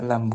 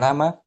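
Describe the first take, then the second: First: The word ends on the bare consonant m. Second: The word ends with an added a vowel. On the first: The speaker calls it right. "lam dibaca lam" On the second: The speaker calls it wrong. "bukan lama"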